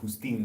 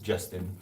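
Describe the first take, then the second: First: The name starts with an h-like sound. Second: The name starts with a j sound. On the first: "That's how you pronounce it in Spanish" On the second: "Justin for English speakers"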